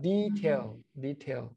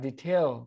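First: The stress is on the first syllable. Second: The stress is on the second syllable. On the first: The word is used as a noun. "แต่ถ้าเป็นคำนามก็ ... ก็จะสเตทเสียงที่พยางค์แรก" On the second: The word is used as a verb. "เตทเสียงที่พยางค์ที่2 มันจะเป็นคำกริยา"

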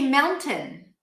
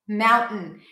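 First: The middle T is a full, released T sound. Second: The middle T is a glottal stop with the tongue held up. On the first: "It's not a mistake to say mountain. Perfectly fine" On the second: "you keep the tongue up, and then you just say mountain"

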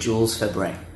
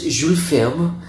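First: The name is said the English way. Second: The name is said the French way.

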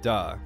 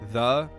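First: The word begins with a hard d sound. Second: The word begins with a soft th sound. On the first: "he says duh, because he can't he can't say that th sound" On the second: "every time he says um, the"

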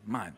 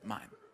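First: The word is said forcefully, with attitude. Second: The word is said plainly, without attitude. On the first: The speaker calls it right. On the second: The speaker calls it wrong.

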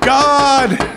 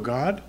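First: It is said with the highest intensity. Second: It is said calmly with low intensity.

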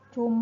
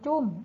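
First: The syllable is said on a low tone. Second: The syllable is said on a falling tone. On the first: "ไม่เอก" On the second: "ไม่โทจุ้ม"

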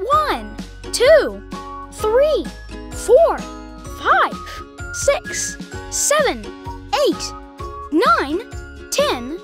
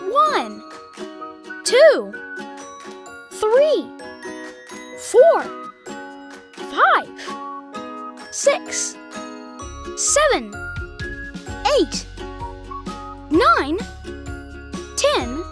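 First: The numbers are counted at a faster pace. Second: The numbers are counted at a slow pace.

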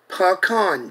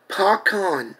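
No difference in how they are said.

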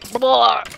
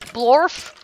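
First: It is said in a slurred, drunken voice. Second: It is said in a plain, questioning voice.

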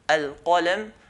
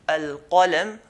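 First: A deep q sound is made at the throat. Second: The same.

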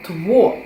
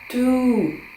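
First: It starts with tw and ends in o. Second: It starts with t and ends in long u. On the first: The speaker calls it wrong. "Тво, так би мовити" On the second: The speaker calls it right. "Вимовляється це як ту"

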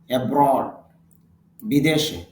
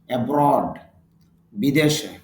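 The two takes are said the same way.

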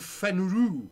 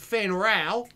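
First: The name is said in the speaker's usual accent. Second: The name is said in a put-on Australian accent.

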